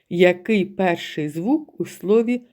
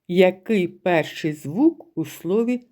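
Both takes have the same delivery.

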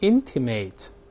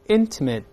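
First: The last syllable sounds like 'ate'. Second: The last syllable sounds like 'it'. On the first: It is the verb meaning to hint. The speaker calls it wrong. "注意不要读成intimate，如果是intimate，就是24 课讲过的动词叫暗示" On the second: It is the adjective. The speaker calls it right. "形容词发it"

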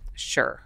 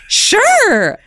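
First: It is said flatly, sounding curt. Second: It is said brightly, sounding enthusiastic.

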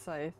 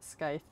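First: The word begins with a plain s sound. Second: The word begins with an sk sound. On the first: The speaker calls it right. "It's scythe" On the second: The speaker calls it wrong. "not scythe. This isn't Skype"

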